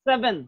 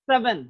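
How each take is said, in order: First: The vowel between v and n is very short. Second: The same.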